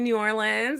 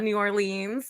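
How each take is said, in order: First: It is pronounced the way local people say it. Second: It is pronounced the way outsiders usually say it. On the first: This is how people who live there say it. The speaker calls it right. "So they say New Orleans" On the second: This is how people from elsewhere say it. The speaker calls it wrong. "it's not New Orleans"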